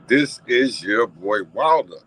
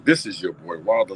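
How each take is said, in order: First: Put-on "this is your boy Wilder" drawn out slowly and louder, landing on "Wilder"; slow emphatic sign-off. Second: Said in the usual way. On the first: Shown as a demonstration. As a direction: announce "Wilder" like a host's signature. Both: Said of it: "Like I said".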